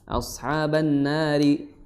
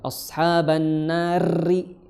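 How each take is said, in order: First: The r is trilled lightly and briefly. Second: The r is trilled heavily and long. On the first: The speaker calls it right. "getarnya nggak berlebih" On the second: The speaker calls it wrong. "itu berlebihan"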